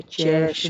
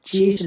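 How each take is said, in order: First: चेस with an open eh; short E sound. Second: चेस with a long closed vowel. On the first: Teacher correcting the reading, चेस with open eh. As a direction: say चेस with e as in bed. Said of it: "चेस बोलेंगे". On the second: Teacher rejecting a misreading, चेस with long vowel. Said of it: "चेस नहीं बोलेंगे". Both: Shown as a demonstration.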